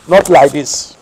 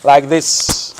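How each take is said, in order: First: Loud firm NOT; Not stressed, louder. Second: Said in the usual way. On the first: Shown as a demonstration. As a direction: hit the word Not hard, correcting. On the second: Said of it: "You put your right hand over".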